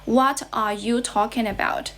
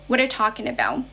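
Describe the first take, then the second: First: Each word is said separately, not linked. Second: The words run together like one word. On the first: "we say the sentence like this" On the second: "they speak the whole sentence all together, like they're pronouncing a single word"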